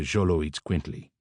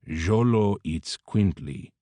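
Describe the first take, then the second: First: The word is said at normal speed. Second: The word is said slowly.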